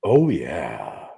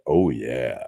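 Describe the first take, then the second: First: Low, husky and slow; sultry voice. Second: Deep, purring husky voice; sultry voice. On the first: Real, not acted. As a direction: let it purr out low and husky. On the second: Shown as a demonstration. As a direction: drop low and purr it out. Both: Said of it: "my sultry voice right now".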